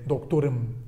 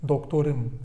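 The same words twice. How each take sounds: The two takes are said the same way.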